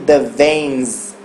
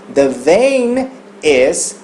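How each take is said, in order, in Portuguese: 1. 'Vein' e 'is' se juntam em uma palavra terminando em z. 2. 'Vein' e 'is' são ditos como palavras separadas.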